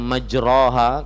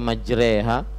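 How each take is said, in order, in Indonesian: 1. Suku kata setelah m diucapkan dengan vokal o. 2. Suku kata setelah m diucapkan dengan vokal e. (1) "padahal tulisannya majroha" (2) "kenapa dibaca majreha?"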